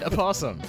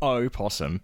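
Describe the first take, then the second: First: The first vowel is weak, like 'a possum'. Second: The first vowel is clearly pronounced as 'o'. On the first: "you clearly said opossum. ... It sounds like you're saying a possum" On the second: "I make the big distinction of opossum"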